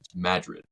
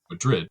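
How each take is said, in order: First: The name is said the local way. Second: The name is said like the Spanish city. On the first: The speaker calls it right. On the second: The speaker calls it wrong. "spelled just like Madrid, but don't call it"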